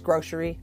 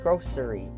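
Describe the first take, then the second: First: The middle consonant sounds like sh. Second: The middle consonant sounds like s. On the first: "when you're speaking quickly, it's grocery" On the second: "Some people pronounce it grocery"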